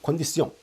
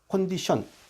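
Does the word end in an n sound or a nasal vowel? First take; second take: nasal vowel; n sound. First: The word ends in a nasal 'ong' vowel. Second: The word ends in a plain 'n' sound. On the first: This is the French form. "불어는 컨디시옹이거든요 ... 옹 발음이 있게 되는데" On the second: This is the modern English form. "현대어에서는 컨디션 ... 니은자 발음 끝나게 됩니다"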